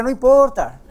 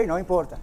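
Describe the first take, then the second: First: Agudo y fuerte, marcando "no importa"; recalcado fuerte. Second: Said in the usual way. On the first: Real, not acted. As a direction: golpear "no importa" con énfasis. Pastor recalca con fuerza. ("no importa" casi gritado)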